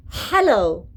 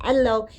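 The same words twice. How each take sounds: First: Hello with a clear, breathy h at the start. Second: Hello said as ello, with no h sound at the start; hello without h. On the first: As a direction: sound the h in hello plainly, the right way. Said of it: "It's not hello, it's ha". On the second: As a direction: drop the h in hello, the wrong way. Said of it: "It's not hello". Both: Shown as a demonstration.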